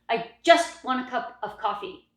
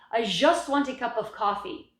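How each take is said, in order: First: The j sound in 'just' is snappy. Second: The j sound in 'just' is soft. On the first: The speaker calls it right. "in English, the ja is very snappy" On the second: The speaker calls it wrong. "So ja is very common"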